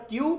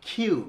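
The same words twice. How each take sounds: First: কিউ with a plain k; the banned কিউ, no puff; dry lifted k in কিউ; unaspirated Q. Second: কিউ said as khiu, air on the k; breathy kh opening কিউ; the corrected কিউ with an aspirated k. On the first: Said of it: "No more কিউ". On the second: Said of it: "এটা হচ্ছে কি বলতো". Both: Shown as a demonstration.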